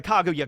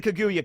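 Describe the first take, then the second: First: "Kaguya" with an open first vowel, KAH-goo-yah; "Kaguya" opening on a full "kah"; alternative pronunciation. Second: "Kaguya" with a reduced first vowel, kuh-GOO-yuh; "Kaguya" the English dub way, opening on "kuh"; dub pronunciation. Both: Shown as a demonstration. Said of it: "they say Kaguya in the English dub".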